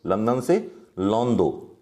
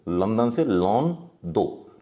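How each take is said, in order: First: Said in the usual way. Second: London से "लोन दो" said slowly, split into लोन and दो; slow, spelled-out pun. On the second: Shown as a demonstration. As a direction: drag out "लोन दो" so it sounds like London. ("लोन दो" को धीरे-धीरे, अलग करके बोलें) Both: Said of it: "लोन के लिए अप्लाई करते हो".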